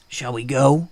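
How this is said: The pitch pattern sounds natural and fitting. The speaker calls it right. "That's how I should have voiced that line"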